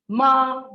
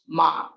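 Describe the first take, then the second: First: The pitch stays high and level. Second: The pitch is low and grave. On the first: It means dog. "ma is high level pitch" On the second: It means horse. "ma with grave pitch"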